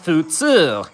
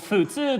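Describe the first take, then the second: First: The word ends with a long 'two' sound. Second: The word ends with a 'tsu' sound. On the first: It puns on the English number two. "replaced the tsu though and the long vowel pronunciation with the uh, English pronunciation of uh, the number two" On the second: It means average or regular. "futsu means like average or regular in Japanese"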